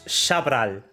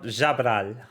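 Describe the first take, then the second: First: The name begins with a sh sound. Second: The name begins with a j sound. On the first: The speaker calls it right. "It's Shabral" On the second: The speaker calls it wrong. "not Jabral"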